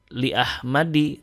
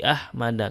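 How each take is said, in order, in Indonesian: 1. Nama itu berakhir dengan vokal 'i'. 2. Nama itu berakhir dengan vokal 'a'. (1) "tidak dibaca"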